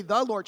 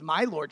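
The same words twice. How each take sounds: First: Said in the usual way. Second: "my" weighted and lower, then "Lord" falling; stress on my. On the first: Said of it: "she doesn't say". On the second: Shown as a demonstration. Pastor showing Elizabeth's words, with the stress on "my". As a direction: lean into "my" in "my Lord". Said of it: "she says".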